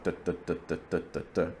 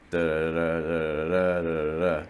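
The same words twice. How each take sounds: First: Each DUH short, even and separate; syllable-timed beat. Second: DUH syllables run together in rolling groups; stress-timed rhythm. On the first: Coach showing Romance language rhythm, evenly separated syllables. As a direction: tap out every DUH with equal weight and gaps. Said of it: "Romance languages are syllable timed". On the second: Coach showing English rhythm, syllables running together. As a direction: roll each DUH into the next with uneven weight. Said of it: "things kinda run together". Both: Shown as a demonstration.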